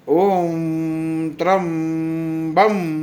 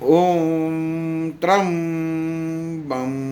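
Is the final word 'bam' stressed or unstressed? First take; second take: stressed; unstressed. First: The final word bam is pressed strongly. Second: The final word bam is not pressed. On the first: The aim is to save the person's life. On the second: The aim is to release the body.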